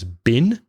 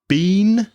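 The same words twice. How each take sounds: First: The vowel in 'been' is very short. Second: The vowel in 'been' is long and full.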